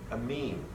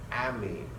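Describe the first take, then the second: First: The first syllable has ordinary, lighter emphasis. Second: The first syllable carries slightly stronger emphasis. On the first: It names the uncharged basic R-NH2 compound. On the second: It names the ligand.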